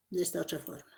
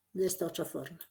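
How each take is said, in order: Both takes have the same delivery.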